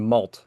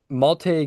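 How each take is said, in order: First: The name ends with a consonant sound. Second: The name ends with a vowel sound. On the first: The speaker calls it wrong. "I want to keep saying Malt" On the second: The speaker calls it right. "you can correct me on the pronunciation"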